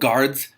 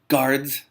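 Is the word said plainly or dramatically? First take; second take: plainly; dramatically. First: It is said in a plain, ordinary way. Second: It is said in a dramatic, exclaiming way.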